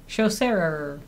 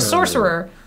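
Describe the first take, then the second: First: The word begins with a 'sh' sound. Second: The word begins with a plain 's' sound. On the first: "but with shos at the beginning" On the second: "Like a sorcerer"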